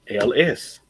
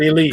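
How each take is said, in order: First: The name is said as two letters. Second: The name is said as one word. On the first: The speaker calls it right. "it's the initials of the owner. L S. That's it" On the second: The speaker calls it wrong. "It's not Elise"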